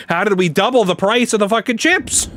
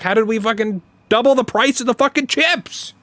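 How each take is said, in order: First: Higher, incredulous retold outrage; half-laughing exasperation at the chip prices; exasperated disbelief. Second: Higher, stress on "fucking double"; heated disbelief. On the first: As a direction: ask it like the price is a bad joke. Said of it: "I was like". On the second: Retold or imitated. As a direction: hammer "fucking double" in mock outrage. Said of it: "I was like, I was like".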